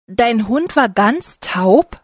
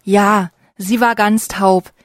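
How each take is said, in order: First: Slow, rising Dein Hund war ganz taub?; mild slow disbelieving question; astonished question. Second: Slow falling Ja, sie war ganz taub; understated sad answer; sad confirmation. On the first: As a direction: ask slowly in disbelief, lifting at the end. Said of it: "fragt Paul". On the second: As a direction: confirm it slowly, letting the tune fall. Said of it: "lächelt traurig". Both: A narrator's reading.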